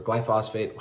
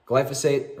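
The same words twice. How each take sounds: First: "glyphosate" with a full, open middle syllable; alternative pronunciation. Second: "glyphosate" with a light, short middle syllable; first pronunciation variant. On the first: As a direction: say "glyphosate" as gly-FOSS-ate. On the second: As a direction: say "glyphosate" as GLY-fuh-sate. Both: Shown as a demonstration. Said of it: "however you wanna pronounce it".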